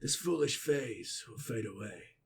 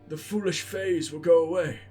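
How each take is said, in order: First: It is read in a put-on voice for Balin. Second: It is read in his plain reading voice.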